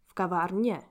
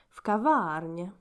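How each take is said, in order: First: The stress is on the last syllable. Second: The stress is on the middle syllable.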